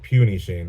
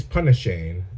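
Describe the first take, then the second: First: Puny Shane, first word starting like "pew"; "puny" as in tiny, pew-nee; mistaken nickname pronunciation. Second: Punny Shane, first word rhyming with funny; "punny" starting like pun; intended nickname pronunciation. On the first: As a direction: say "puny Shane" with a long yoo sound. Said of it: "sounded like puny Shane". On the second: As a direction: say "punny Shane" with a short u, as in Punisher. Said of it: "He's Punisher and he's Shane". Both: Shown as a demonstration.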